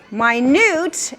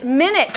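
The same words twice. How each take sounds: First: "minute" said slowly as my-NEWT; "minute" with long I and stressed NEWT; stress on second syllable. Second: "minute" said as MIN-it; "minute" with short vowels, MIN stressed; stress on first syllable. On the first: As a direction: hit the end of "minute", my-NEWT, meaning tiny. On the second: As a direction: hit the start of "minute", MIN-it, the unit of time. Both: Shown as a demonstration. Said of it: "on which syllable you're emphasizing".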